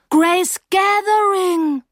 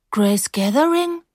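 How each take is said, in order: First: High, loud, long-drawn amazement; amazed recognition. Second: Slow, higher, questioning repeat; puzzled question. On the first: Narrator suddenly remembering her old friend, amazed. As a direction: stretch the name out in astonished recognition. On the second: Narrator not recognising her old friend, puzzled. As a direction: repeat the name, not placing it. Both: A narrator's reading.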